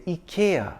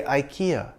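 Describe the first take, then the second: First: Ikea as "ee-KAY-uh"; UK ads' pronunciation. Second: Ikea as "eye-KEE-uh"; Indian-American pronunciation. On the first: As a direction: say ikea starting with ee. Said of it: "the U K ads say". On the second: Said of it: "The Indian ads and the American ones say". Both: Shown as a demonstration.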